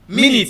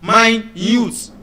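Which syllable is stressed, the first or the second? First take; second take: first; second. First: The stress is on the first syllable. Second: The stress is on the second syllable. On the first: It refers to a unit of time. "the first syllable is the stressed syllable" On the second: It means very small. "the first syllable is not stressed, but the second syllable is stressed"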